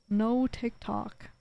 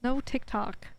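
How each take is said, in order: First: Slow, dragged-out, mopey echo; sulky drawn-out repeat. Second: Said in the usual way. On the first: Real, not acted. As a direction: drag each word out, sulking. Repeats phrase, second take drawn out.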